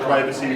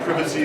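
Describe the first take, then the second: First: It is said with an American pronunciation. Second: It is said with a British pronunciation.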